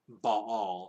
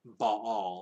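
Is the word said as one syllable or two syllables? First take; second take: two syllables; two syllables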